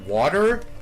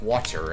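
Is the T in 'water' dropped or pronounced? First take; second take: dropped; pronounced. First: The T sound in the middle is dropped. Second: The T sound in the middle is pronounced. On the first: This is how people from the speaker's home area say it. "I did not do that because we say water" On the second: This is how people in other areas say it. "they would say with the T, like water"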